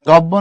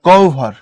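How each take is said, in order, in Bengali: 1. মাঝে একটি দ্বিত্ব b ধ্বনি আছে। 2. মাঝে bh-এর আগে একটি ও-গ্লাইড আছে। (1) "না" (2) "এখানে বলবা ও"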